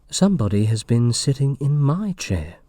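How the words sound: It is said in a medium voice.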